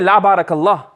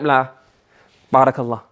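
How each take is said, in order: First: The two words run together without a pause. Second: There is a clear pause between the two words. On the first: May God not bless you. The speaker calls it wrong. "then it can seem as if what? I'm making dua against you" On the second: No, and may God bless you. The speaker calls it right. "the stop in my pronunciation, enunciation, that is going to be what? Enough"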